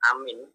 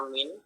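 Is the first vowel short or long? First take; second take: long; short. First: The first vowel is long. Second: The first vowel is short. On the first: "A panjang" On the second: "A pendek"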